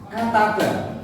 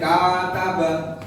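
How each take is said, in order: First: The vowels are short and clipped. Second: The vowels are drawn out and lengthened. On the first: The speaker calls it right. "hurufnya pendek-pendek, bacanya ya harus pendek-pendek" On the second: The speaker calls it wrong. "tidak boleh kataba"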